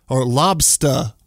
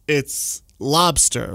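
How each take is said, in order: First: "lobster" said slowly as "lobstah", dropping the r, in a lightly done Maine accent. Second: Said in the usual way. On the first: Shown as a demonstration. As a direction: stretch "lobster" like a New Englander, no r at the end. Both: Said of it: "they really play into the accent".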